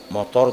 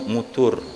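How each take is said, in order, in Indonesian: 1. Kata ini diucapkan dengan vokal 'o'. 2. Kata ini diucapkan dengan vokal 'u'.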